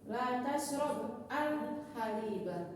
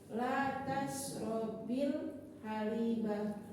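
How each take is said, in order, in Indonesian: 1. Kata kerja itu berakhir jelas, terpisah dari kata berikutnya. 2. Kata kerja itu tersambung ke kata berikutnya dengan -i. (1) "kalau kita baca putus" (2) "kalau kita baca sambung"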